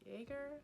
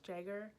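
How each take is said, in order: First: The name begins with an H sound. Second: The name begins with a J sound. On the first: "Like the J is pronounced as an H" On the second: "I think it's Jagger"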